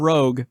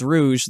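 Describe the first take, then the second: First: It is said like the English word rogue. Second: It is said like rouge, the color word. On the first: The speaker calls it wrong. "It's not Armor Rogue" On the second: The speaker calls it right. "It's Rouge, the color. So, don't mispronounce it"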